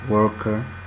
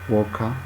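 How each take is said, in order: First: The word ends in a central schwa vowel. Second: The word ends in an open a vowel.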